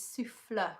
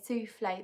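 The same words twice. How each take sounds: First: "souffle" said as "soo-FLUH", no AY ending; French "souffle", rhyming with "fluh"; correct French pronunciation. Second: "souffle" said like the dessert, "soo-FLAY"; mistaken soufflé pronunciation. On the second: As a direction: end "souffle" on an AY sound. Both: Shown as a demonstration. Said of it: "The correct way of saying it".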